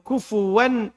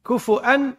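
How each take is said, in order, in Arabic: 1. في الكلمة صوت واو بعد الفاء. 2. في الكلمة همزة بعد الفاء. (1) "وأما بالواو" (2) "هذا بالهمس"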